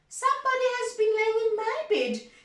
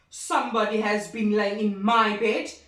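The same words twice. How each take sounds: First: It is said in a medium-sized voice. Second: It is said in a deep, big voice.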